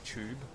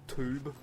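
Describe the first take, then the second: First: The word starts with a CH sound. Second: The word starts with a plain T sound. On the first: This is how our group says it. "we say it as C H" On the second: This is how the other group says it. "they like say it as a T, like tube"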